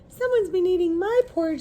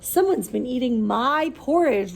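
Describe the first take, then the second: First: It is said in a high squeak. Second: It is said in a loud roar.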